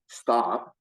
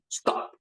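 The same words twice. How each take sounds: First: It sounds like a questioning, rising word. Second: It sounds short and firm, like a command.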